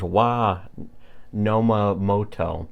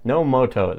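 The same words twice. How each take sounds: First: Nomomoto drawn out slowly, falling at the end; spelling out an odd name slowly; slow careful name. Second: Nomomoto said again higher, quicker, falling off; a mocking second go at the name; higher repeat. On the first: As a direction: sound out Nomomoto syllable by syllable. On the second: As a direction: toss off Nomomoto in a raised voice. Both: Shown as a demonstration. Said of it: "that's a terrible name".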